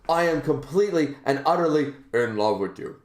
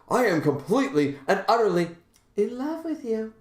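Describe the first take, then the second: First: The line is said in an ordinary voice. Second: The line is said in an odd, changed voice.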